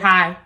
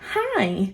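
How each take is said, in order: First: It sounds curt and annoyed. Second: It sounds bright and cheerful.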